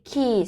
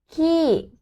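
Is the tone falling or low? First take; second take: low; falling. First: The word is said with a low tone. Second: The word is said with a falling tone. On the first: It means to ride a motorbike. "c'est le tronc bas" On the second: It means feces. "c'est le tronc descendant"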